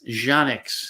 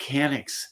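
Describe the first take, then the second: First: The name begins with a J sound. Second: The name begins with a K sound. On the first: The speaker calls it right. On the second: The speaker calls it wrong.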